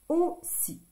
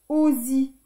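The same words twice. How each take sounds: First: The middle consonant is a hissing s sound. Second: The middle consonant is a buzzing z sound. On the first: The speaker calls it right. "Double S" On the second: The speaker calls it wrong. "Si on met qu'un seul S, ça fait aussi"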